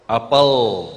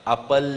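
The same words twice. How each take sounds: First: Apel with the tongue up on the palate; Indonesian l. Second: Apel with the tongue tip forward; apel, lam near the upper teeth; Quranic lam. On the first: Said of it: "Kalau apel, lamnya sampai ke langit-langit". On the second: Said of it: "Tapi lamnya Quran". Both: Shown as a demonstration.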